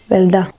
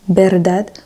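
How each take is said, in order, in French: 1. La consonne du milieu est un son L. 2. La consonne du milieu est un son R. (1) "quand on change le R en L" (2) "au lieu de dire verdad"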